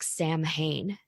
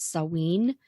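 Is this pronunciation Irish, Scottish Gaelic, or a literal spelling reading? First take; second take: spelling reading; Scottish Gaelic. First: The word is read literally, letter by letter. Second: The word is said with the Scottish Gaelic pronunciation. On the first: "If you see it written out, it looks like Samhain" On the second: "in Scottish Gaelic it is slightly different. I think it's Samhain"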